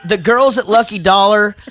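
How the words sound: It is read in a put-on mother's voice.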